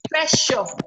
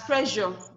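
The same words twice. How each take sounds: First: The middle consonant is a voiceless 'sh' sound. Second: The middle consonant is a voiced 'zh' sound. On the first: The speaker calls it right. "The one that you get in shore" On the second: The speaker calls it wrong. "It is not pronounced as pressure"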